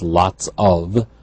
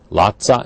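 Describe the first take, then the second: First: Each word is said separately and fully. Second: The words are run together in a reduced form.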